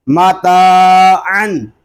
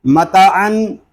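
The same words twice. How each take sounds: First: माता अन with no nasal ghunna on अन, only ता drawn out; correct reading. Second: मता अन with the first vowel cut short; wrong reading. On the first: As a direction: read माता अन plainly, stretching only the ता. (माता अन बिना ग़ुन्ना के, सिर्फ़ ता खींचकर) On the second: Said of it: "इस तरह नहीं पढ़ेंगे". (मता अन, छोटी मा के साथ ग़लत तरीक़ा) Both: Shown as a demonstration.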